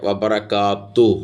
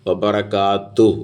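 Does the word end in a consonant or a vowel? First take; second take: vowel; vowel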